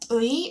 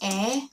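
First: The vowel is a gliding 'ui' sound. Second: The vowel is a plain 'e' sound. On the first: "의 or 에" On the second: "nowadays, people more pronounce it as 에"

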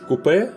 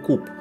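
First: The word is said in a French-British way. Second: The word is said in an American way. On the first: "French-British coupé" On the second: "more American coupe"

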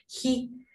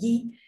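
First: The g is a breathy, aspirated sound. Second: The g is a soft, smooth sound. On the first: This is how it sounds in Spanish. "en castellano la dejamos como sonido aspirado" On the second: This is how it sounds in Greek. "en griego pronunciamos la G suave"

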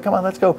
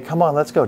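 First: It is said in an excited, upbeat tone. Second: It is said in a soft, soothing tone.

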